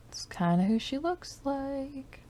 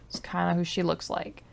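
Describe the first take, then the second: First: High, quiet self-repeat; high, soft echo. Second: Said in the usual way. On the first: Real, not acted. Musing to herself about the Sim, high and soft. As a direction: softly echo it much higher.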